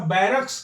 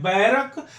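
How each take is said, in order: First: बैरक्स ending in a clear ks; correct form with s. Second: बैरक stopped on the k; wrong form without s. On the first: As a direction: sound the final s of बैरक्स. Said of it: "हम हमेशा बैरक्स कहते हैं". (अंत में स के साथ बैरक्स) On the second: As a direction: end बैरक on k, no s. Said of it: "गलत होता है बोलना". (बिना स के बैरक) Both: Shown as a demonstration.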